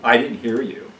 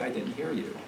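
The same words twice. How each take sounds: First: It is said in a curt, defiant tone. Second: It is said in a soft, apologetic tone. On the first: The listener is passively refusing to obey. The speaker calls it wrong. "Even how you say it says something about the attitude" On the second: The listener genuinely regrets missing the instruction. The speaker calls it right. "as opposed to, oh, I'm so sorry"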